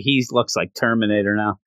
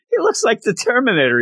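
First: Said in the usual way. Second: Higher and faster, emphatic repeat; excited. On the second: Real, not acted. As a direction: blurt it out again with excitement.

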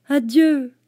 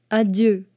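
First: Put-on a higher, boyish voice for the little prince; the little prince's higher farewell. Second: The fox's goodbye, nearer the narrator's own pitch; a lightly voiced fox; a lightly voiced fox saying goodbye. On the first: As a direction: say goodbye like a small boy. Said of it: "dit-il". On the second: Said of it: "dit le renard". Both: A narrator's reading.

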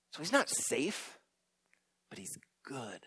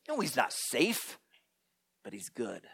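First: Softer, fading to a whisper on good; hushed emphasis. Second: Low soft grave reply, fading to a hush; hint of Mister Beaver. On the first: Acted. Preacher repeating the Aslan line to the congregation, hushed. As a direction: let the last words drop to a whisper. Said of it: "preacher repeats the line". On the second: Mister Beaver reassuring the children, soft and grave. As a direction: answer with quiet gravity.

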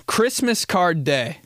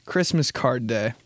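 First: Higher, slower announcing read of Christmas card day; announced. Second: Said in the usual way. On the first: Shown as a demonstration.

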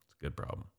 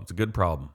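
First: Whispered aside, voice dropped away. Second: Said in the usual way. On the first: Real, not acted. Whispering to his friend about his tool-buying habit. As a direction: breathe it out as a secret joke. Whispered repeat of good problem.

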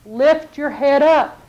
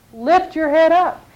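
First: Slow, drawn-out plea; slow urging. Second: Slow urging. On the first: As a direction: lift them slowly with the words. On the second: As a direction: lean in and repeat it. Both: Acted. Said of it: "God's speaking to you".

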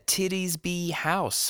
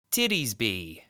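First: Titties Be House said slowly as "titties be"; mispronounced name. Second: Titties be said as "titties be"; mispronounced name. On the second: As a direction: read the sign as "Titties be". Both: Acted. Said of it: "It's pronounced Tittersby".

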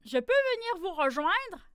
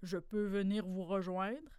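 First: Higher, louder hopeful question; eager fox asking. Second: Lower, softer question; wolverine asking. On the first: Fox begging to join the animals, higher and louder. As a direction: ask brightly to be let in. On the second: Wolverine asking to join the crowded mitten, lower and softer. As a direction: ask heavily to come in. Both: A narrator's reading.

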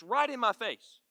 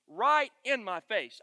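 First: Said in the usual way. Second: "right in my face" said slowly, each word leaned on; "right in my face" stretched slow and louder; slow emphasis. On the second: Shown as a demonstration. Repeats phrase for emphasis.

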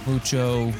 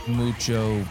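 The two takes are said the same way.

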